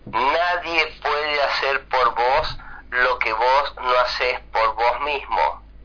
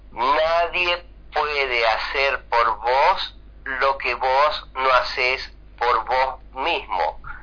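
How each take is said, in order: First: The sentence is spoken at a normal pace. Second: The sentence is spoken more slowly.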